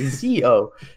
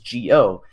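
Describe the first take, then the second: First: The word begins with a Z sound. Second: The word begins with a soft G sound. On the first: The speaker calls it wrong. "they don't say Zio" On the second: The speaker calls it right. "it's not a Z sound, so I say it that I say it that way in my videos"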